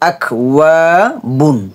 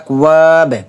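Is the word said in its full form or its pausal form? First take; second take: full form; pausal form. First: The word keeps its full ending, not stopped. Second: The word is cut short at a stop.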